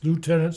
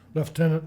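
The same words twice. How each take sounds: First: It is said the American way. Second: It is said the Canadian way. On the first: "south of the border" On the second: "north of the border"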